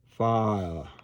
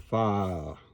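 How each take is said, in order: The two takes are said the same way.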